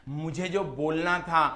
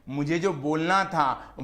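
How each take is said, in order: Both takes have the same delivery.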